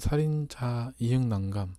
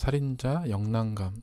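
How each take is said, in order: First: The middle letter is read as the syllables ieung. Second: The middle letter is read as the syllable yeong. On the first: "다른 분들은 살인자 이응난감" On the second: "아니면 살인자 영난감 이렇게 발음할 수"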